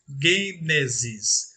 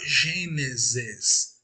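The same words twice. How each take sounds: First: It begins with a hard 'g' sound. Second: It begins with a soft 'zh' sound. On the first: This is the Greek reading. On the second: This is the usual Portuguese reading.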